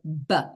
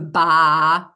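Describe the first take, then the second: First: The consonant is said alone without a vowel. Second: The consonant is followed by an added vowel. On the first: The speaker calls it right. "you just go B" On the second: The speaker calls it wrong. "Don't go ba"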